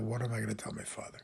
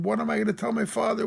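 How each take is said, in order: First: Put-on softly quoting the boy. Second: Put-on distraught boy. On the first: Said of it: "that little boy who called out". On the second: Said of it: "And the boy was screaming".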